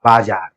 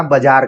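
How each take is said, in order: First: बाजार with both vowels long, "baa-jaar"; correct long vowel. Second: बाजार said the common way, with short first vowel, "ba-jaar"; everyday pronunciation. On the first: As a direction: give बाजार a full long "aa" in the first syllable. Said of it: "क्योंकि उच्चारण यहाँ पर". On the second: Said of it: "हम लोग आमतौर पर यही बोलते हैं". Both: Shown as a demonstration.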